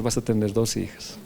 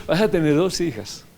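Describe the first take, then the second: First: Said in the usual way. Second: Repeating the promise through a laugh; a laughing, happy retelling of the prophecy. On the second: Retold or imitated. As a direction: say it again, chuckling with joy. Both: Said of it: "Así le dije".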